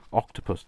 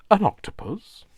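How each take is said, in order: First: Said in the usual way. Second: High, loud, puzzled "An octopus?"; quizzical surprise. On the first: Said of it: "every time somebody said". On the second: Retold or imitated. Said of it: "in a very quizzical kind of, like, surprised sort of way".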